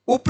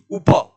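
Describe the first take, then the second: First: उप cut short as "up", high; wrong उप. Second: उप as u-pa, final vowel sounded, loud; correct उप. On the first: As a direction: say उप ending on a bare p. (उप का प अधूरा) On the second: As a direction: open out the प at the end of उप. (उप के प का पूरा उच्चारण) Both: Shown as a demonstration. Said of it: "उप नहीं".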